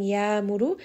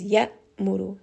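First: The sound flows on without a stop. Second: The sound stops abruptly with a jerk. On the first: The speaker calls it wrong. "instead of saying ya muru" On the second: The speaker calls it right. "it is ya muru. So it's very obvious there is a hamza here"

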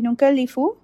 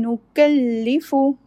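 First: The lam sound is plain and unemphasized. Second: The lam sound is doubled and emphasized. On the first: The speaker calls it wrong. "Don't just say nukallifu" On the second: The speaker calls it right. "Stress on lam, do a little bit of nabr to show the emphasis"

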